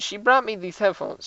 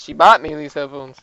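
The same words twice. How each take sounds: First: Said in the usual way. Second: "bought" hit hard and loud; self-correction, leaning heavily on "bought"; stress on BOUGHT. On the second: Real, not acted. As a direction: correct yourself by punching "bought". Corrects own misreading of brought.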